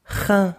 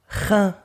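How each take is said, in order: No difference in how they are said.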